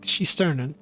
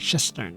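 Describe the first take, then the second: First: The name is said as Shesternen. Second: The name is said as Shistern. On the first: The speaker calls it right. "it's like Shesternen" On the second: The speaker calls it wrong. "I'm saying like Shistern, but no"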